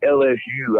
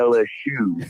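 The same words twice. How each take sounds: First: The last letter is said as a plain U. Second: The last letter is said like the word shoe. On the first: "I don't say L S U" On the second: "I say L S U, you know, because that shoe penalty"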